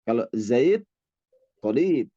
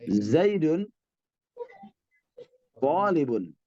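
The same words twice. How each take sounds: First: Zaid tolib with the final -un dropped, endings silent; pausal form. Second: Zaidun tolibun with the -un ending sounded on both words; vowelled i'rab reading; case endings voiced. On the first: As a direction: stop on the consonant in Zaid and tolib. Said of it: "kadang-kadang kita sukunkan". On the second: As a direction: end Zaidun and tolibun with a clear -un. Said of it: "Kalau ingin di hidupkan nahwu akhir". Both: Shown as a demonstration.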